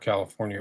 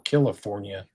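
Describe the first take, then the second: First: It is said in the speaker's ordinary accent. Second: It is said imitating the listener's accent.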